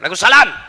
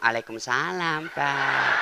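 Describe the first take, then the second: First: The voice is firm and curt. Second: The voice is soft and sultry.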